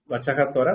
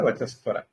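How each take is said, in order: First: The first word ends with a breathy h-sound. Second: The first word ends with an s-sound.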